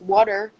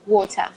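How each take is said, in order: First: It has an American accent with a flapped T. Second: It has a British accent with a clear T.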